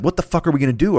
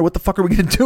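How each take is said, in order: First: Higher, frantic retold panic; Tasmanian Devil frenzy. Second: Much higher and louder, at the peak of the panic; Tasmanian Devil frenzy. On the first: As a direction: spin up like a cartoon whirlwind. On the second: Retold or imitated. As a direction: whip the repeat up into a frantic climax. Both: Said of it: "I spin up Tasmanian Devil style".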